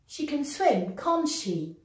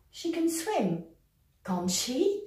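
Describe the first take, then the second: First: The pitch falls at the end of the tag. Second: The pitch rises at the end of the tag. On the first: The speaker is almost certain she can swim. "L'intonation est descendante" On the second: The speaker is unsure and wants confirmation. "Avec une intonation montante"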